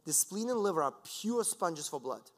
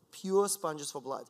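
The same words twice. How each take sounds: First: Said in the usual way. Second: "pure sponges for blood" slowed right down, pure leaned on; slow emphatic repeat. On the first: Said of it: "lecturer repeats key phrase". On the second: Shown as a demonstration. Lecturer repeating his point to the audience, slow and emphatic. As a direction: let pure sponges sink in, word by word. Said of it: "lecturer repeats key phrase slower".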